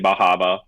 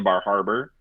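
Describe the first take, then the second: First: It is said in a Maine accent, dropping r. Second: It is said with the r sounds pronounced.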